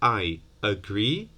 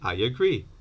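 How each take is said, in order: First: The two words are said separately, without a glide. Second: A y sound links the two words together. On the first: "instead of I agree" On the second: "you inevitably add this y to say I agree"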